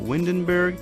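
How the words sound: The name is pronounced the English way. "do you say it in English"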